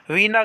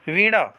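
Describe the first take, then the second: First: वीणा with a plain n; wrong dental n. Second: वीणा with a curled-tongue ṇ; correct retroflex n. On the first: Teacher showing students the mistake, plain n. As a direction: say वीणा as "vee-na", tongue forward. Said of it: "गलत होता है". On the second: Teacher giving students the right form, retroflex n. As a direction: curl the tongue back in वीणा. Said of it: "सही हो". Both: Shown as a demonstration.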